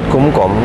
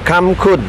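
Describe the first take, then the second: First: The first syllable has a rounded 'u' vowel. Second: The first syllable has an open 'a' vowel. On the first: This is how local importers say the name. "paling enak ya kita sebut kumkom" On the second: This is how Thai people say the name. "Kalau di orang Thailand bilang kamkun"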